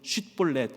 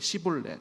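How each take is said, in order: First: The word begins with a sh sound. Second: The word begins with a plain s sound. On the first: The speaker calls it right. "원래는 쉿볼렛 이렇게 발음을 해야 되는데" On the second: The speaker calls it wrong. "쉬 발음이 잘 안 됐던 것 같습니다"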